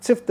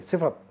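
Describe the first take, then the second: First: Sift with no vowel after F; mispronunciation. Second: Si-fat with a vowel before T; correct pronunciation. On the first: Teacher warns against the slip, clustered FT in सिफ्त. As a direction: make सिफ्त one syllable ending FT. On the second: Teacher corrects the slip, two-syllable सिफत. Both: Shown as a demonstration. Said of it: "सिफ्त नहीं".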